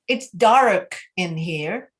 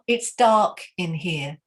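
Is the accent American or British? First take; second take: American; British. First: It is said in an American accent. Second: It is said in an English accent. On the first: The speaker calls it wrong. "American in English" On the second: The speaker calls it right. "So we want English"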